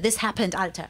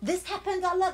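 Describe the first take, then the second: First: The last word has a clear t and r. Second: The last word sounds like 'Allah', no t. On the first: "we say Alter" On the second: "I'm from Frankfurt, and we pronounce it Allah"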